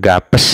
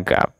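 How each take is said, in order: First: The word ends with an added es. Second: The word ends cleanly on p. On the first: The speaker calls it wrong. "bukan gapes" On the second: The speaker calls it right. "bacanya gap"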